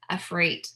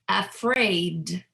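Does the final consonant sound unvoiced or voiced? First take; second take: unvoiced; voiced. First: The final consonant is an unvoiced T. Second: The final consonant is a voiced D. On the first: The speaker calls it wrong. "So it's not afraid" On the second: The speaker calls it right. "I'm really pronouncing that last sound as a voiced sound"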